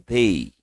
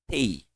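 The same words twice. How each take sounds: First: It begins with a soft D-like sound. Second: It begins with a hard T sound. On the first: The speaker calls it right. "É como se fosse um som de D" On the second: The speaker calls it wrong. "não é they, tá? De T"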